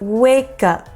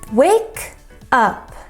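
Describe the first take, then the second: First: The two words are joined together smoothly. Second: The two words are said separately. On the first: "native speakers say wake up. We combine wake and up together" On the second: "is okay"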